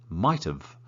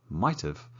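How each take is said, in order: No difference in how they are said.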